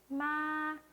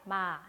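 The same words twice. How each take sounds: First: It is said high, level and slightly long. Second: It is said at an ordinary, mid pitch. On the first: "이거보다 높고 길게 읽어주세요" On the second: "이게 한국어 보통 톤이죠?"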